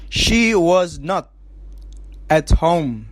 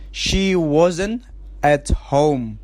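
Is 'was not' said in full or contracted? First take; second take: full; contracted. First: Was and not are said as two full words. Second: Was and not are joined as wasn't.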